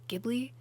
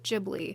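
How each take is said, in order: First: The word starts with a hard G sound. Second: The word starts with a J sound. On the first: The Italian source word is said this way. "an Italian plane where the j sound is pronounced more like" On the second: The name's creator says it this way. "Hayao Miyazaki pronounced it Ghibli"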